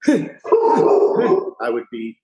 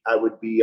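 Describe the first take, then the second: First: Drawn out. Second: Said in the usual way. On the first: Shown as a demonstration. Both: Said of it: "I would be like".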